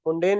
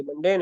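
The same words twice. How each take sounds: First: मुंडेन with an oo sound, as a mistake; wrong pronunciation. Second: मंडेन with a short a sound; correct pronunciation. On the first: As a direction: say it wrongly as मुंडेन, with u in the first syllable. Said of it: "ये मंडेन है". (गलत उच्चारण मुंडेन, पहले अक्षर में उ) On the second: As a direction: say मंडेन clearly, with short a in the first syllable. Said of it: "मुंडेन नहीं है". (सही उच्चारण मंडेन, पहले अक्षर में अ) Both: Shown as a demonstration.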